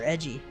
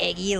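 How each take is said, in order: First: The middle consonant is a soft j sound. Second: The middle consonant is a hard g sound. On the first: "or edgy" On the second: "like eggs"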